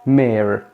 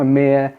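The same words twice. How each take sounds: First: "مير" American-style with sounded R; American accent. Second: "مير" British-style, final R silent; British accent. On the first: Teacher giving the other option, American-accented "مير". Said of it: "ممكن ننطقها بالامريكان نقول". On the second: Teacher recapping for viewers, British-accented "مير" without R. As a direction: leave "مير" open-ended, British accent. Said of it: "في البريتش بيقولوها". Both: Shown as a demonstration.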